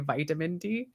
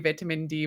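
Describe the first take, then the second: First: It is said in a Canadian accent. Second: It is said in a British accent. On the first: "the way we say" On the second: "the way you say"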